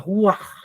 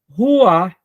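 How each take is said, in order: First: The final sound is a guttural rasp. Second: The final h sound is nearly silent. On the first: "com um som gutural, que sai assim bem no centro da boca" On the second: "uma leitura mais simples no português seria Ruach"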